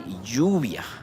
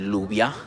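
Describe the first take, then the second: First: The double L sounds like an English y. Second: The double L sounds like an English l. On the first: The speaker calls it right. "We say lluvia" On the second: The speaker calls it wrong. "We don't say lluvia"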